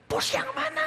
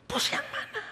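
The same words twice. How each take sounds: First: Much higher, demanding boss voice; pressing boss. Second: Much higher, insistent voice of the boss; pressing boss. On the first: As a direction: push the question like an impatient boss. (bos mendesak dengan suara tinggi) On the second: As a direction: demand an answer, pushing harder. Boss presses him again. (bos bertanya dengan nada tinggi mendesak) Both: Retold or imitated.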